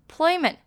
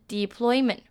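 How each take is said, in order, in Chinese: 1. 第一个元音是短音，像 'it' 的发音。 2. 第一个元音是长音，而且饱满。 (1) "de 呢是发it 的短音，所以是deployment" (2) "不是deployment"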